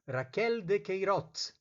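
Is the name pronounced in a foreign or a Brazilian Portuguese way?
foreign. The name is said with a foreign pronunciation. The speaker calls it wrong. "não são ... Raquel de Queiroz"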